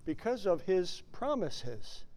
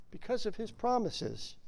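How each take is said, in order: First: Quiet emphasis. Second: Quiet repeat. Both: Shown as a demonstration.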